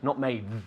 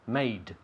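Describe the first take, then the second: First: The word ends with a soft TH-like sound. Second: The word ends with a crisp D sound. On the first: The speaker calls it wrong. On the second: The speaker calls it right.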